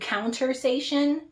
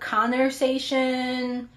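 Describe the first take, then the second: First: The word begins with a counter sound. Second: The word begins with a conver sound. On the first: The speaker calls it wrong. "sometimes turn out to countersation" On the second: The speaker calls it right. "I say this one right a lot of times"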